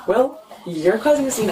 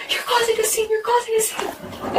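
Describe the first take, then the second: First: YOU'RE pushed higher, own voice throwing it back; pointed retort. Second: Very high mimicked screech without volume; mock screaming. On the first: Retold or imitated. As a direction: lean on "you're" with a raised pitch, turning the accusation round. Retorts to ex's screamed accusation. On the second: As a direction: imitate ex's outcry in a high voice. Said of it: "he's screaming in my face".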